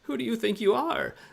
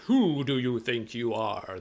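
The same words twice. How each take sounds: First: It sounds timid and meek, like a little person. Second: It sounds powerful and angry, like a wizard.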